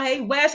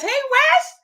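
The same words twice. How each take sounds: First: Said in the usual way. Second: Very high, loud squeal of a name; excited high-pitched hello; squeaky high greeting. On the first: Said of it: "greeting repeated". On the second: Real, not acted. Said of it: "second greeting squeaked high".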